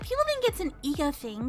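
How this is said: It is said in a put-on character voice.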